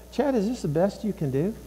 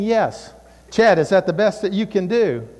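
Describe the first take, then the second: First: Lightly voiced mom, softer; a hint of quiet motherly reproach; disapproving mom. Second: Lightly voiced dad, firm; a hint of stern father; dad's voice. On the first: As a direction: quietly question a child's effort. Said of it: "That would be Mom again". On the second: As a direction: firmly challenge a child's effort. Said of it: "Dad would be saying".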